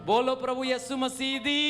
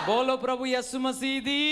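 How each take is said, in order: The two takes are said the same way.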